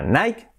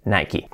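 First: "Nike" as "naik", no final vowel; "Nike" cut to one syllable. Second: "Nike" as "nai-ki"; "Nike" in two syllables, ending "kee"; American Nike. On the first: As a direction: say "Nike" like "bike". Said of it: "no digas a partir de ahora". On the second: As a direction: say "Nike" with an i on the end. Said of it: "decís Nike". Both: Shown as a demonstration.

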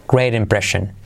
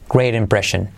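Both takes have the same delivery.

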